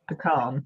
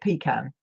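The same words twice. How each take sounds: First: Pecan is said the way some Americans say it. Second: Pecan is said the speaker's own non-American way.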